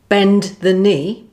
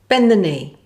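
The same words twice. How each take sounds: First: The final D is fully pronounced. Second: The final D is not sounded.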